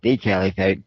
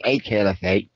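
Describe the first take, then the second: First: "the" said as "thee", leaned on; stress on THE. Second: "a" said as a full "ay"; stress on A. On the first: Commentator sharpening the claim, stress on "the" as "thee". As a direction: stress "the" to mean the one and only. Corrects "a" to emphatic "the. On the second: One commentator weighing the claim, stress on "a". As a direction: lean on "a" as "ay", one of several. Contrasts "a" with "the. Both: Real, not acted.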